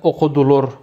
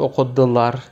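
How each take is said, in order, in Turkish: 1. Son hecedeki ünlü tamamen yuvarlak. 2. Son hecedeki ünlü a gibi geliyor. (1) "ben okudular derim. Yuvarlaklaşma oluyor full" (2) "Bazıları okudular der. A olur"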